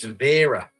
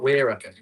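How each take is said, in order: First: The name begins with a V sound. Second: The name begins with a W sound. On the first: The speaker calls it right. "they want you to call it Vera, like the old lady's name" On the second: The speaker calls it wrong. "not Wera"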